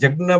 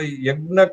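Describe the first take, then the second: First: The word begins with a j sound. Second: The word begins with a y sound. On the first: "जज्ञ बोलते हैं" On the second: "तो यज्ञ का"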